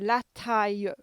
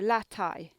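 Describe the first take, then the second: First: It ends with an extra 'ye' sound. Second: It ends like the English word 'tie'. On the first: It sounds like the real local accent. "if you want the real French accent from down here... you just put ye on the end" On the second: A simple version that people would understand. "you can just say it as like la and then a tie"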